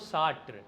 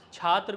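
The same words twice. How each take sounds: First: The word begins with an 'sh' sound. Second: The word begins with a 'ch' sound.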